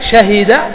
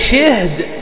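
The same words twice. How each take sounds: First: Open a after sh, i after h. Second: Vowel i after sh, no vowel after h.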